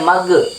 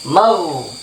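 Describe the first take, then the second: First: The consonant is a hard g stop. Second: The consonant is a soft fricative without a stop. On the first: The speaker calls it wrong. "tidak boleh mage, nggak boleh" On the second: The speaker calls it right. "tidak boleh pantul, tidak boleh jadi g"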